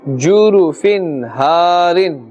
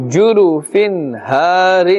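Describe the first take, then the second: The two takes are said the same way.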